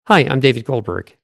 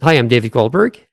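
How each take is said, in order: First: "Goldberg" falling to a definite close; downward inflection. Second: "Goldberg" rising like a question; upward inflection. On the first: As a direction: bring "Goldberg" down as a plain statement. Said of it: "the downward inflection". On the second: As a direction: swing the end of "Goldberg" upward. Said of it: "First, the upward inflection". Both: Shown as a demonstration.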